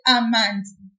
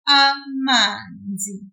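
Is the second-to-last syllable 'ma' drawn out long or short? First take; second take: short; long. First: The syllable 'ma' is short and clipped. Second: The syllable 'ma' is drawn out longer. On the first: The speaker calls it wrong. "If I didn't pull it, I would have said" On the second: The speaker calls it right. "we will pull the syllable ma, that M A, a little bit, like this"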